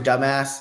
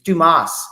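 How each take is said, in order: First: The name sounds like the insult 'dumbass'. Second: The name does not sound like 'dumbass'. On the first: It is a joking mispronunciation of the name. The speaker calls it wrong. "My dad always had a joke for people who have the the last name that's spelled D U M A S" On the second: It is how the man says his own name. The speaker calls it right. "Dumas is how the guy pronounced it"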